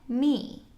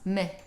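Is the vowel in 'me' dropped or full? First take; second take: full; dropped. First: The word is said with its full vowel. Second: The word is said quickly without its vowel. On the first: The word is stressed in the sentence. "If it is stressed in a sentence, you would pronounce it just as we do today" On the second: The word is unstressed in quick speech. "if you're saying it quickly, then it becomes m, and the E gets kind of dropped off"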